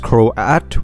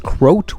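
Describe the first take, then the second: First: The name is said with an A vowel. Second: The name is said with a U vowel. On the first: "with an A" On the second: "with a U"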